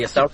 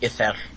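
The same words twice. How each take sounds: First: The middle consonant is a plain English L. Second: The middle consonant is a hissing Welsh LL.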